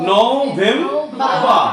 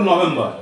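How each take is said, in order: First: নভেম্বর drawn out very slowly as no-vem-baa; model pronunciation. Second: নভেম্বর run together in everyday Bangla style; common local pronunciation. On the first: Teacher repeats for pupils, slow careful model pronunciation. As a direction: say নভেম্বর syllable by syllable with pauses. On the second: Teacher shows how we usually read it, common local pronunciation. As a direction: say নভেম্বর quickly as one word, no syllable breaks. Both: Shown as a demonstration. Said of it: "আমরা পড়ি নভেম্বর".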